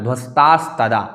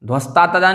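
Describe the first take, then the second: First: ध्वस्तास्तदा with a clear s before "tadaa"; s clearly sounded. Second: ध्वस्ता तदा with no s before "tadaa"; s left out. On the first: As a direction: correct ध्वस्तास्तदा, both s sounds audible. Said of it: "सकार भी बोलना है". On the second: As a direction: demonstrate the mistake ध्वस्ता तदा, dropping the second s. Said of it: "नहीं बोलना". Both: Shown as a demonstration.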